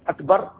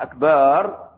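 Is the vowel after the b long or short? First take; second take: short; long. First: The vowel after the b is short. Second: The vowel after the b is drawn out long. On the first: God is greatest. The speaker calls it right. "بدل ما كان أكبر" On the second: It means drums, changing the meaning entirely. The speaker calls it wrong. "أصبح أكبار"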